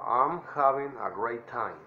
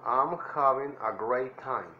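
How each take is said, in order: First: Drawn out once more for copying; slow teacher demo; slow model phrase. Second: "I'm having a great time" slowly, stress on "having"; drawn out for copying; slow teacher demo; slow model phrase. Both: Shown as a demonstration. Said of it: "traten de imitar mi voz".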